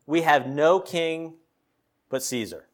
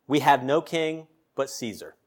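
First: Deliberate weight on "no king", hushed "but Caesar"; slow emphatic repeat. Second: Said in the usual way. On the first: Acted. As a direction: stretch "no king", pause, then let "but Caesar" fall away. Verse repeated slowly for emphasis.

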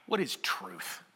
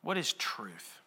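First: Much lower and softer, a bored brush-off; eye-rolling dismissal. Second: Eye-rolling dismissal. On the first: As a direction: scoff at the question like Pilate turning away. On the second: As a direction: lower and softer, a tired repeat of the brush-off. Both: Retold or imitated. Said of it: "you can almost hear him roll his eyes".

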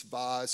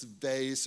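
First: VASE with a broad AH and a Z ending; VASE as "vahz". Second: VASE with a long A and an S ending; VASE rhyming with face. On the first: Preacher giving the other way to say it, VASE as "vahz". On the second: Preacher giving one of two ways to say it, VASE rhyming with face. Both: Shown as a demonstration. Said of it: "Who says vase?".

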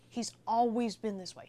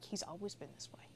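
First: Said in the usual way. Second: Hushed whisper, barely any voice; soft unvoiced whisper from proud parents. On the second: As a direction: whisper it like a fond secret. Parents praising their sweet son.

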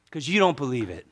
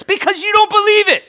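First: Said in the usual way. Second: Very high, loud, strained shout; full-force preacher's shout; yelling. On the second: Real, not acted. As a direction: yell the answer at the top of your range. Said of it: "Why are you yelling".

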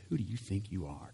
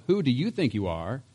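First: Soft, mocking sneer at the question; scoffing challenge to Jesus; with attitude. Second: Said in the usual way. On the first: Shown as a demonstration. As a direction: toss it off as a put-down, quieter. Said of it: "kind of an attitude". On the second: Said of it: "But the question itself".

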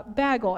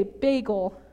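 First: Said in the usual way. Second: "bagel" with a long "ay" before the g; Minnesotan "bagel". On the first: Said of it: "hard time saying words with A Gs". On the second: Shown as a demonstration. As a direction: say "bagel" as BAY-gul. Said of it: "But I used to say bagel".

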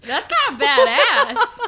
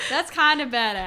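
First: Laughing. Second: Said in the usual way. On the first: Real, not acted. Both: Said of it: "It wasn't badass".

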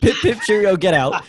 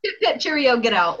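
First: Laughing through a mock British send-off; laughing British accent. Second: Hammed-up posh British send-off; mock the Brits kicking him out; mock British accent. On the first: To friends, repeating the joke, laughing mock British accent. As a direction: echo the British line, laughing. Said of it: "doing these impressions". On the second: To friends, mocking British officials, hammed-up British accent.

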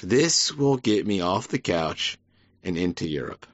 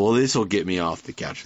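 First: Slowed mock fan. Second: Quick, casual fan voice, lightly voiced; brushing it off like a drunk fan; mock American fan. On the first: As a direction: stretch each word out lazily. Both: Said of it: "They go".

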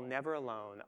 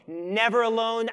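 First: Much softer, hushed, Never alone said gently; soft tender promise. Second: Louder, with a strong stress on Never; loud emphatic promise. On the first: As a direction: lay it down softly like a comfort. Voiced Jesus ends tenderly. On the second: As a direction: proclaim it like an unbreakable vow. Preacher voices Jesus promising Paul. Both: Acted.

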